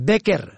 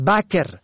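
First: بکر said "beker"; short e after b in بکر; kasra on first. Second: بکر said "baker"; fatha on first. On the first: Teacher shows بکر for "fresh", pronounced beker. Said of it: "به کسر اول". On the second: Teacher shows بکر as a name, pronounced baker. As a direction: open a after b in بکر. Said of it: "به فتح اول". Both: Shown as a demonstration.

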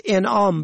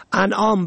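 First: انعام said "en'am"; short e starting انعام; kasra on first. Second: انعام said "an'am"; fatha on first. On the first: Teacher shows انعام for "gift", pronounced en'am. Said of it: "به کسر اول". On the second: Teacher shows انعام for "animals", pronounced an'am. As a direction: open a starting انعام. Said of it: "به فتح اول". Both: Shown as a demonstration.

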